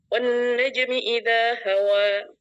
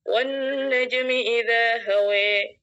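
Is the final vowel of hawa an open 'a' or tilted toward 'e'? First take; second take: open a; toward e. First: The final vowel is a plain open 'a'. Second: The final vowel is tilted toward 'e'. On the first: "Ada yang membaca dengan fathah" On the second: "ada yang membaca dengan imalah"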